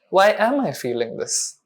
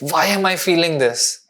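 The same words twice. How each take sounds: First: The question sounds open and curious. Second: The question sounds harsh and judgmental. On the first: The feeling is treated as something worth understanding. The speaker calls it right. "just change your tonality to" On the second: The feeling is treated as something that should not be there. The speaker calls it wrong. "every time you notice that you're judging your inner experience"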